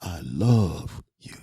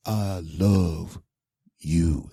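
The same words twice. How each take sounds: First: "love" stretched long, very slow; drawn-out "love", trailing into "you"; the other emphasis. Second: "love" held, then a pause before "you"; slow "I love", pause, then "you"; practiced emphasis. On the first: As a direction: lean hard and slowly on "love". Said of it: "do the other one". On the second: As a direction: set "you" apart after a beat. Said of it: "give me a couple of 'em". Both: Shown as a demonstration.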